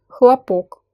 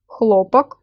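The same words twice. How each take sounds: First: "хлопок" stressed on the last syllable, khla-POK; stress on second syllable. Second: "Хлопок" stressed on the first syllable, KHLO-pak; full O first in "Хлопок", reduced second vowel. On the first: Teacher showing learners how stress changes meaning, "хлопок" stressed on POK. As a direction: reduce the first O of "хлопок" and hit POK. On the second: Teacher showing learners how stress changes meaning, "Хлопок" stressed on KHLO. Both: Shown as a demonstration. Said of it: "meaning of the word depends on it".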